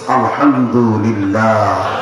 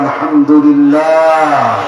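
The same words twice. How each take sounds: First: It is said at normal loudness. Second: It is said more loudly.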